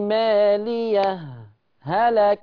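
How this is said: A brief breathless stop separates the two words. "يبقى انا هنا عملت سكت، سكت على الهاء بتاعت مالية وفصلتها عن هلك"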